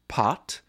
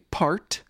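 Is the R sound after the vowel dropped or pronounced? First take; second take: dropped; pronounced. First: The R after the vowel is dropped. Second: The R after the vowel is pronounced. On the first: The speaker is from a non-rhotic English region. "someone from Manchester ... the latter would say" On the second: The speaker is from a rhotic American region. "someone from Cincinnati ... the former would say"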